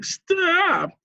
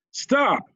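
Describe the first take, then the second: First: "Stop!" squeaks up much higher as the voice breaks; voice cracking. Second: Sudden high shouted "Stop!". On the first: Nick's shout breaking, a cracked squeaky "Stop!". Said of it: "His voice cracked so much". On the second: Nick bursting into the theater, a high shout. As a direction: burst in and yell "Stop!" to halt the meeting. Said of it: "Nick shouted". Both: A narrator's reading.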